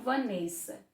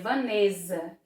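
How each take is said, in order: First: The middle consonant is a hissing s sound. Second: The middle consonant is a buzzing z sound. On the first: It is how the name sounds with two S's. "o S aqui ele vai ter som de S" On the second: It is how the name would sound with one S. "iria ficar o som de Z"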